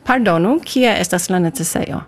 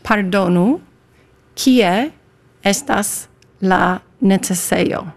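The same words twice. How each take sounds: First: "Pardonu, kie estas la necesejo" run together fluently; quick, fluent. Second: "Pardonu, kie estas la necesejo" word by word, slowly; slow pronunciation demo. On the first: Guest showing host "Pardonu, kie estas la necesejo", quick fluent delivery. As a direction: say it properly in one quick go, no gaps between words. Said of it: "That was very quick". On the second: Guest teaching host "Pardonu, kie estas la necesejo", slow demo. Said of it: "Please, Amanda". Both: Shown as a demonstration.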